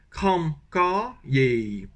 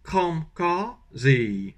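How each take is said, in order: First: Southern Vietnamese kram ka ye, very slow; slow southern Vietnamese, ending on ye; southern Vietnamese accent. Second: Northern Vietnamese kram ka ze, very slow; slow northern Vietnamese, ending on ze; northern Vietnamese accent. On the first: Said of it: "avec l'accent du sud". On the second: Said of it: "Accent du nord". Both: Shown as a demonstration.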